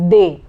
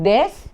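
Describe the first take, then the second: First: It is said like 'day', with no final consonant. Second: It is said with an 'e' vowel and final consonant. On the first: The speaker calls it right. "it is they" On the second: The speaker calls it wrong. "The pronunciation is not des"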